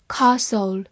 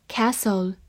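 First: "Castle" British-style, long back a; British accent. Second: American "castle" with a front a as in cat; American accent. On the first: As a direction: give the British KAH-sul for "Castle". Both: Shown as a demonstration. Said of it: "美式发音".

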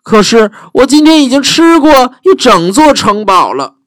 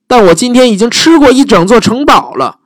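First: High, puffed-up dragon bragging; a full, lazy dragon brushing her off. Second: High, bored dragon bragging; same lazy brush-off from the dragon; dragon voice repeated. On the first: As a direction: dragon turning the princess away, high and smug. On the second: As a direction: dragon refuses Elizabeth, high and smug. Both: Acted.

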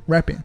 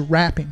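First: RAPPING said as "repping"; correct short-e vowel. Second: RAPPING with an open a as in "rap music"; wrong vowel. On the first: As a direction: give RAPPING the E of "representing". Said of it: "representing那个E的发音". (RAPPING 读成E音) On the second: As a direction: widen the vowel in RAPPING to a flat a. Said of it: "不是rapping". (RAPPING 错读成说唱的a音) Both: Shown as a demonstration.

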